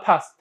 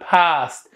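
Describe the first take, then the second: First: The vowel is said short. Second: The vowel is said long. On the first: The speaker calls it wrong. "احنا ما نلفظها past" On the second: The speaker calls it right. "نقول past ... past اه اه طويله"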